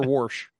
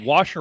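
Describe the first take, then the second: First: "wash" with an added r before sh; wash as WARSH. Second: "Wash" as WAHSH, no r sound; wash without R. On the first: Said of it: "said warsh". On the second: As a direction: say "Wash" with a plain open vowel. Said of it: "There's no R". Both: Shown as a demonstration.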